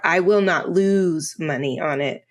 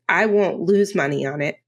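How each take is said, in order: First: It is said slowly and deliberately. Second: It is said at normal speed.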